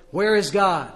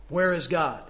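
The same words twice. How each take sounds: First: Loud stern booming demand; raised booming voice. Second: A touch of a big booming voice; firm booming question to a scared boy; booming pastor. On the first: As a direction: bellow the question at the frightened boy. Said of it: "raised his voice another octave". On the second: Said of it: "a large man with a great booming voice". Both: A narrator's reading.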